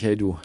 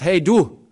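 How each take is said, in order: First: Said in the usual way. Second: Loud, high, careless "Hey, du!"; rude call. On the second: Acted. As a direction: bark "Hey, du!" as a rough call. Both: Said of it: "Nee, er sagt nicht".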